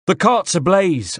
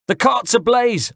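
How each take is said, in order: First: Much higher, slow Corsican rebel alarm cry; faking a Corsican rebel to spread panic, in his accent. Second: Put-on even higher, slow, shouted Corsican accent; Corsican rebel accent. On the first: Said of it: "in what I hoped was an approximation of the voice and accent of a Corsican rebel". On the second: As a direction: cry the alarm again as the rebel. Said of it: "I repeated". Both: A narrator's reading.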